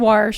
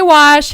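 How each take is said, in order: First: The word is said with an r sound. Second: The word is said without an r sound. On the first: "he says wash" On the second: "I say wash"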